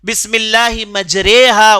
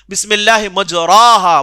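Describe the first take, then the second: First: The middle vowel is said like 'e'. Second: The middle vowel is said like 'a'. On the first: The speaker calls it right. "मजरेहा ही कहना चाहिए" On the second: The speaker calls it wrong. "जो लिखा गया है उसे आप देख के पढ़ेंगे तो मजराहा पढ़ेंगे"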